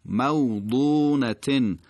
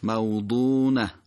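First: موضونتن recited "maw-ḍūū-na-tin"; slow موضونتن, long ū, tanwin ending; continuing form with tanwin. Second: موضونة stopped as "maw-ḍūū-nah"; slow موضونة, tanwin dropped, falling ending; pausal form. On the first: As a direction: sound the final -tin in موضونتن. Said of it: "نوع خوندنش حتما دقت بفرمایید". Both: Shown as a demonstration.

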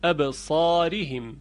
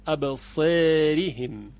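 First: ابصارهم slowly with a clear open a; open vowel. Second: ابصارهم slowly as absereehim, a bent to e; slow ابصارهم with imala. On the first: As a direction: say ابصارهم with a wide a. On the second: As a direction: stretch ابصارهم with e-like vowel. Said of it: "این گونه خونده است". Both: Shown as a demonstration.

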